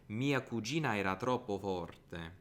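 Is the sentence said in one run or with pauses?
one run. All the words run together without pauses.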